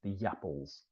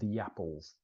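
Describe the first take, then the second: First: A soft Y sound joins the two words. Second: A soft Y sound joins the two words.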